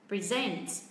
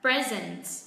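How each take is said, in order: First: The stress is on the second syllable. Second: The stress is on the first syllable. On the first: It is used as a verb. "nếu như nó đang ở dạng là verb thì trọng âm lại rơi âm tiết thứ hai" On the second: It is used as a noun or adjective. "nếu như nó ở dạng là adjective hoặc là noun thì trọng âm sẽ rơi vào âm tiết thứ nhất"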